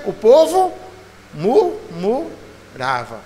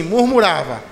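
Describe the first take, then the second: First: Murmurava stretched very slowly, syllable by syllable; preacher drags out murmurava for the congregation to repeat; drawn-out murmurava. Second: Said in the usual way. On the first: Shown as a demonstration. Slow, drawn-out murmurava. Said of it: "Diga assim, murmurava". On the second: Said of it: "Diga assim".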